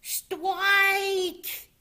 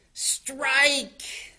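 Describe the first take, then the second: First: Put-on very high, squealed childlike "stwike"; little Polly yelling. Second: High, loud strike call; triumphant call. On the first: Polly's ball touches the pin, high babyish yell. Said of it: "yelled Polly". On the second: Grandma bowls the ball, loud triumphant call. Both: A narrator's reading.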